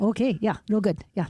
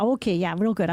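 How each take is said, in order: First: Put-on Minnesota accent. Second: Sunny Midwest nice, lightly voiced; Minnesota phone voice. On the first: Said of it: "you betcha". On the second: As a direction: play it polite and cheery. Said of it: "loan company were calling".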